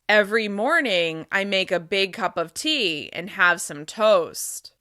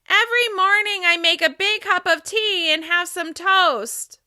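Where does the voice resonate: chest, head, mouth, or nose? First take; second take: chest; head. First: The voice resonates low, in the chest. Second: The voice resonates high, at the top of the head. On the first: "Now I'm going to speak with chest resonance" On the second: "Now I'm going to speak with resonance at the top of my head"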